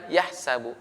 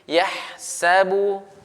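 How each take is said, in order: First: The h sound is clipped short, not flowing. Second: The h sound flows out lightly with breath. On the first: The speaker calls it wrong. "bukan yahsabu" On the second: The speaker calls it right. "dialirkan dan ditipiskan"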